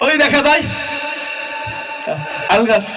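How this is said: It comes after repeated stuttered false starts. The reciter has a stutter. "তোতলামি করতে করতে আসে বলতেছে"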